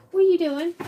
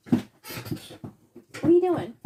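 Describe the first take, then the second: First: Quick high, louder call to the dog; a sudden high-pitched question to the dog; talking to the dog. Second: Very slow, high sing-song question to the dog; drawn-out to the dog. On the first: Talking to her dog in corner. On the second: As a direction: stretch every word out for the dog. Talking to her dog again. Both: Real, not acted.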